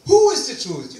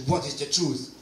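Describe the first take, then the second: First: WHO punched high and loud; nun correcting the question, stress on Who. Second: Said in the usual way. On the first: Retold or imitated. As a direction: hit the word Who hard to correct him. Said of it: "You asked the wrong question". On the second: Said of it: "It's the wrong question".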